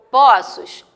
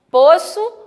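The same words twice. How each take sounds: First: POÇOS with an open ó, pó-ços; POÇOS, stressed o open-mid. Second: POÇO with a closed ô, pô-ço; POÇO, stressed o close-mid. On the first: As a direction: say "poços" with a wide ó. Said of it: "ele vai dar o som de aberto". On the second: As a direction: say "poço" with rounded ô, voice lifting. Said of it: "A tonicidade dela vai ser fechada". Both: Shown as a demonstration.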